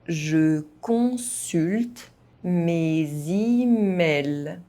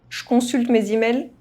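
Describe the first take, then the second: First: It is spoken at an ordinary, moderate pace. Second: It is spoken fast, with some sounds dropped. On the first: "at a normal pace" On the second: "fast, as a native speaker would do"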